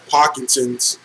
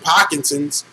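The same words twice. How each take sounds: First: It is said in the speaker's normal accent. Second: It is said in a put-on Boston accent.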